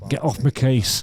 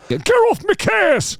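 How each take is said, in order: First: Put-on restrained Manchester accent; Mancunian, held near speaking pitch. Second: High, drawn-out Mancunian yell. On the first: Trying the singer's retort, unforced Manchester accent. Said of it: "which part of Manchester I was from". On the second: Retold or imitated. Retrying the singer's retort, loud high Manchester accent. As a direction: squawk it loudly in a mock Manchester accent. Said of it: "I'll try again".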